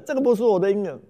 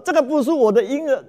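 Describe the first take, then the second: First: Fading wail. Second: High, loud wailing, stress on 个; wailing plea. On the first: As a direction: let the wail sink, lean on 不. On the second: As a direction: cry it out, stress on 个. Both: Acted. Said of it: "大声的嚎哭啊".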